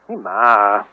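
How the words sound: It sounds annoyed and bothered.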